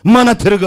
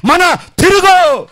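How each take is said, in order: First: A milder call, a touch louder. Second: Much higher, louder, slow roaring call; father's roar. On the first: Father's love calling the child back, mild call. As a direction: call it out firmly but held back. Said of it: "ಕೂಗ್ತಾ ಇದೆ". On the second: God as father calling his child to repent, roaring. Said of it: "ಅಪ್ಪ ಕೂಗ್ತಾ ಇದ್ದಾನೆ". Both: Acted.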